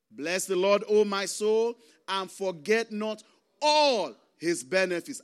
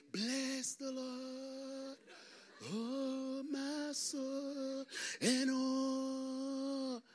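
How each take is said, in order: First: Loud, declaimed psalm verse; emphatic scripture reading. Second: Soft, high, drawn-out sung psalm; mock-holy singing. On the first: Real, not acted. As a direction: proclaim it to the congregation, stretching the key word. Reads the psalm to the congregation. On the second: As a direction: croon it slowly like a pious Sunday churchgoer. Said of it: "Everybody's looking holy".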